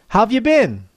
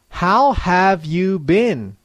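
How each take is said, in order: First: It is said quickly with natural linking and intonation. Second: It is said slowly and clearly, word by word. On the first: "I'll say the same expression at natural speed and with natural intonation" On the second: "I will say each slang expression slowly and clearly"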